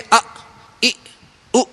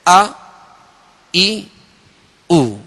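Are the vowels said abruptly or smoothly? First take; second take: abruptly; smoothly. First: The vowels are cut off with a jerk. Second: The vowels are said smoothly without a jerk. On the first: The speaker calls it wrong. "झटका भी नहीं देंगे" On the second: The speaker calls it right. "बल्कि अ ई उ इस तरह पढ़ेंगे"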